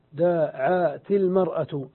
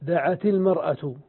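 First: "دعت المرأة" slowly broken into separate syllables, first long "دا", then "عا". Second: Said in the usual way. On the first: Shown as a demonstration. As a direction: split "دعت المرأة" into drawn-out pieces to show the dropped alef. ("دعت المرأة" مقطعة ببطء مقطعًا مقطعًا) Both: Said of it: "حذفنا الألف".

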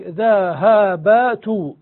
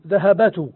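First: "ذهبت" drawn out as four punched syllables, dha, ha, ba, tu. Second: "ذهبت" joined up as one word, dhahabatu, with every consonant voweled; all vowels sounded. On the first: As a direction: beat out every vowel of "ذهبت" one at a time. ("ذهبت" مقطعة ببطء: ذَ، هَـ، بَ، تُ) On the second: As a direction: run the four syllables of "ذهبت" together as dhahabatu. ("ذهبت" موصولة بأربع حركات: ذَهَبَتُ) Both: Shown as a demonstration. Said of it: "فالقياس المهجور المتروك".

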